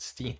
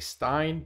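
First: The vowel sounds like 'ee'. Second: The vowel sounds like 'eye'. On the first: The speaker calls it right. "Steen is the right way" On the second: The speaker calls it wrong. "I used to say Stein"

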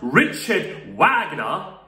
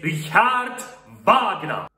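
First: The name is said with a non-German pronunciation. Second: The name is said with a German pronunciation. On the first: The speaker calls it wrong. "It's not Richard Wagner" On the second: The speaker calls it right. "this guy came from Germany, and his name is pronounced as Richard Wagner"

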